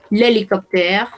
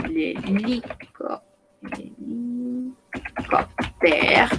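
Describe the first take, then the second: First: Said in the usual way. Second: "l'hélicoptère" drawn out very slowly and softly; slow syllable by syllable. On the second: Shown as a demonstration. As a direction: stretch out each syllable of "l'hélicoptère".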